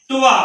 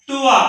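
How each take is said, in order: Both takes have the same delivery.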